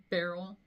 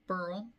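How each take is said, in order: First: "Beryl" with BER as in berry; alternative pronunciation. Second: "Burl" rhyming with curl; alternative pronunciation. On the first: Naming the storm they sailed ahead of, "Beryl" said BAIR-ul. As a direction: say "Beryl" with an open eh in the first syllable. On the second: Offering another way to say the storm's name, "Burl" like curl. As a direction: say "Burl" as one syllable with an ur vowel. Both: Shown as a demonstration. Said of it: "however you wanna pronounce it".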